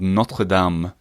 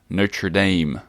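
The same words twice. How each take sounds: First: The vowel in Dame sounds like in papa. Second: The vowel in Dame sounds like in day. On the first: This is how it is said in French. The speaker calls it right. "In French, it's called Notre Dame" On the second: This is how it is said outside France. The speaker calls it wrong. "not Notre Dame"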